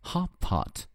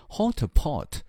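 First: The o vowel is an open-mouth 'ah'. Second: The o vowel sounds like 'oh'. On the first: The speaker calls it right. "而是hot pot，hot pot 偏向一个大嘴的音" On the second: The speaker calls it wrong. "它不是发O 的发音，所以呢，各位同学不要读成hot pot"

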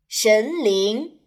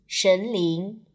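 First: Both syllables rise clearly in pitch. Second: Both syllables stay at a flat pitch. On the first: The speaker calls it right. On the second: The speaker calls it wrong.

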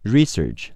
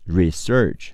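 First: The stress is on the first syllable. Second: The stress is on the second syllable. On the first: It is used as a noun. "名词研究调查research 重音在前面" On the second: It is used as a verb. "动词研究调查research 重音在后面"

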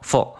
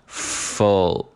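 First: The f sound is very short. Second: The f sound is held longer. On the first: The speaker calls it wrong. "读这个f 时间过短了，直接读成了full full full" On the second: The speaker calls it right. "所以说这个音节我们读作full full"

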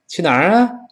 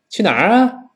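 The two takes are said the same way.

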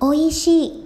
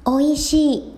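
Both takes have the same delivery.

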